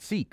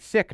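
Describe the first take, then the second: First: The word has a long vowel, like 'seek'. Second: The word has a short vowel, like 'sick'. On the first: The speaker calls it wrong. "not seek" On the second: The speaker calls it right. "you say sick"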